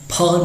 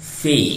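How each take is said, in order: First: The sound is released with an abrupt burst. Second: The sound is released softly with gentle friction. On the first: The speaker calls it wrong. "हम फ नहीं कहते हैं, झटके से मुंह खोल कर नहीं बोलते हैं" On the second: The speaker calls it right. "बड़ा सॉफ्टली, बहुत मुलायमियत से कहते हैं"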